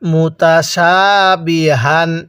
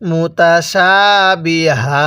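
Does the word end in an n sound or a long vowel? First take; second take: n sound; long vowel. First: The word ends with a short vowel and n. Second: The word ends with a lengthened vowel, no n. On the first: The reading continues without stopping. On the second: The reader stops at this word.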